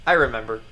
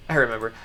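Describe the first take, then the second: No difference in how they are said.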